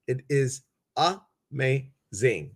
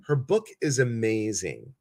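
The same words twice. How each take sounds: First: "amazing" broken into three slow, separate syllables; emphatic syllables. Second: Said in the usual way. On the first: Real, not acted. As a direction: split "amazing" syllable by syllable, pausing between each. Repeats praise syllable by syllable.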